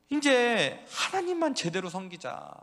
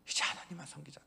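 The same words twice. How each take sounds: First: 하나님만 hit loud and high, slow; 하나님만 shouted with weight; stress on 하나님만. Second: 하나님만 said much softer, falling; gentle 하나님만 after the shout. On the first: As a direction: lean hard on 하나님만, draw it out. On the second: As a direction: drop to a soft plea on 하나님만. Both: Acted. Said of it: "계속 외쳤죠".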